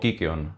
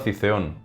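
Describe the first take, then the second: First: The word is pronounced the Greek way. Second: The word is pronounced the Spanish way.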